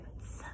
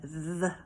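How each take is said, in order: First: Th breathed with no voice, tongue between teeth; soft unvoiced th for the class. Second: Th voiced with a buzz, tongue between teeth; voiced hard th for the class. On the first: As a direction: whisper out th as pure air. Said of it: "our soft T H". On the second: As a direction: make th hum so the jaw vibrates. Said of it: "the hard T H sound". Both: Shown as a demonstration.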